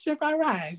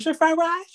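First: The same high mimicry, softer and ending on a fall; imitating the carryout cashier. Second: High, clipped, sing-song calling of the order, ending on a rise; imitating the carryout cashier. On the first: Mimicking the cashier a second time to his friend, softer high repeat. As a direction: repeat "shrimp fried rice" higher, quieter, dropping at the end. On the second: Mimicking the carryout cashier to his podcast friend, high call. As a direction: call out "Shrimp fried rice" high like the cashier taking an order. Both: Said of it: "That's how they talk".

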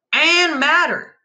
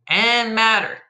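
First: "and madder" high, loud and slow; peak of escalation. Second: "and madder" lifted higher; escalating emphasis. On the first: Narrator on bandit's peak rage, "and madder" high and slow. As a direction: stretch "and madder" out at full pitch. Top step of escalating repetition. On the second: Narrator on the bandit's growing rage, "and madder" raised. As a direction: push "and madder" up a step in pitch. Middle step of escalating repetition. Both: A narrator's reading.

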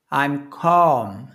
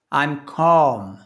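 The two takes are said the same way.

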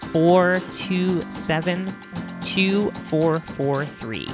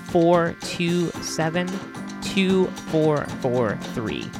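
The two takes are said the same way.

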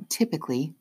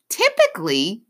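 First: Said in the usual way. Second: "Typically" as a higher, louder rising question; questioning repeat. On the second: A narrator's reading. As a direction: echo "Typically" back as a doubting question. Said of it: "Officer Williams repeats".

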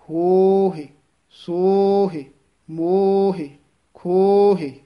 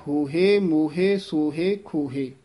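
First: ਹੋਹੇ, ਸੋਹੇ, ਮੋਹੇ, ਖੋਹੇ said louder with a faint i after ਹ; louder, with a hint of i in ਹੋਹੇ; sihari sound. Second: ਹੋਹੇ, ਮੋਹੇ, ਸੋਹੇ, ਖੋਹੇ with a plain e ending; laan sound. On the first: Teacher calls out the sihari reading to students, louder. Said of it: "ਇਹ ਸਿਹਾਰੀ ਦਾ ਉਚਾਰਨ ਹੈ". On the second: Teacher contrasts the laan reading for students. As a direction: say ਹੋਹੇ with an open e, fading. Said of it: "ਲਾਂ ਦਾ ਉਚਾਰਨ ਹੈ". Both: Shown as a demonstration.

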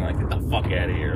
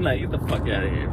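First: Mock superfan sneer. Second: Said in the usual way.

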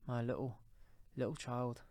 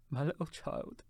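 First: Halting, restrained grief; grieving cry. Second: Higher, tearful cry of grief; breaking down. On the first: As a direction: falter between the words, holding back tears. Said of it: "cried Bob". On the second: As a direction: let the voice break into sobbing. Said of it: "he broke down all at once". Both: A narrator's reading.

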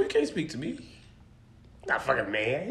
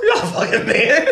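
First: Low, slow and heavy, as if passing judgment; mock deep verdict. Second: Higher, breaking into laughter on You're not a fucking man; laughing tease. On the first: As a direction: drop way down and drag You're not a fucking man. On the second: Acted. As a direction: say it through your own laughter. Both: Teasing friend about living alone.

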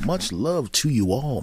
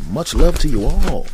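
First: Slow, higher, swooping affection; drawn-out sign-off. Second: Louder, higher burst of affection; hearty sign-off. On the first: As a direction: stretch each word out fondly. Same sign-off drawn out, softer. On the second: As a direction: belt out your love to the listeners. Sign-off thanks repeated with rising fervour. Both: Real, not acted.

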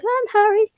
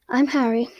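First: Very high, put-on little voice; hammed-up high-pitched Harry; mock squeaky introduction. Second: Said in the usual way. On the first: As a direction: squeak it out as a joke. Mimics Harry's awkward introduction.

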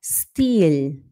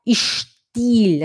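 First: "Stil" with a clean hissed s, like English "steel"; slow, lower "Stil" with a crisp s; English s pronunciation. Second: "Stil" begun with a sh sound, ishtil; "Stil" with a Portuguese-style sh at the front; wrong sh pronunciation. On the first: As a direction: say "Stil" starting st, no sh, drawn out. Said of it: "a gente fala Stil". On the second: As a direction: say "Stil" as "Schtil", hushing the s. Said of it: "a gente não fala Stil". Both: Shown as a demonstration.

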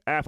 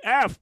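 First: Said in the usual way. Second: High, loud retold shock; sudden high, punched exclamation; incredulous outburst. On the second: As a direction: blurt out the grade in mock disbelief. Shocked reaction to failing grade.

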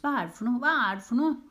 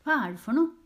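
First: High nagging rising higher and louder; nagging building. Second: High loud nagging. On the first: Findus badgering Pettersen, nagging climbing higher. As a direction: keep pestering, louder each time. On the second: Findus pestering Pettersen, high nagging. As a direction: whine it insistently. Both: Acted. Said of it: "maste Findus".

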